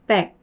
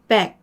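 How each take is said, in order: Both takes have the same delivery.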